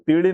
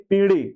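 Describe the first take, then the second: First: पीढ़ी with a short first i, "pidhi"; wrong short vowel. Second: पीढ़ी with a long first "pee". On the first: Teacher showing students the error, पीढ़ी with short i. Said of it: "पीढ़ी नहीं पीढ़ी". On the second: Teacher correcting for students, पीढ़ी with long ee. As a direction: lengthen the first vowel of पीढ़ी. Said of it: "पी बड़ी की मात्रा लगी". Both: Shown as a demonstration.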